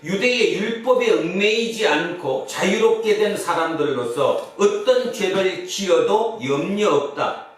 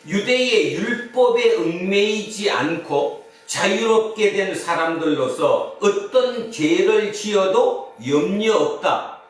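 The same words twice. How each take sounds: First: It is read somewhat faster. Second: It is read at a normal pace.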